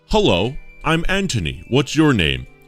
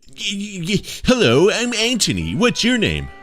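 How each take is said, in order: First: It is read in a plain voice. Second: It is read in a put-on character voice.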